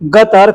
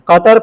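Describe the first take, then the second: First: The word begins with a g sound. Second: The word begins with a k-like sound. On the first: "उसको ग के तरह बोलते हैं" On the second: "कतर के अंदर बड़ा काफ जो भी होता है ना"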